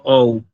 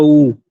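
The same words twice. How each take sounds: First: "ou" as two vowels, o gliding into u; wrong reading OU. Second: "u" as one pure, held vowel, no o; correct reading U. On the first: Teacher ruling out a wrong diphthong reading, both vowels sounded. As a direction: show "ou" with an audible o before the u. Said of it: "No el diptongo ou". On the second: Teacher giving the right diphthong reading, one emphatic vowel. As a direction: stress a single long "u" sound. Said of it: "el diptongo u". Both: Shown as a demonstration.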